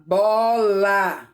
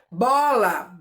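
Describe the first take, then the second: First: Bola split into bo-la; each syllable of bola opened clearly; syllables spelled out. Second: Said in the usual way. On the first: Shown as a demonstration. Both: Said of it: "Quantas vezes eu abro a minha boca".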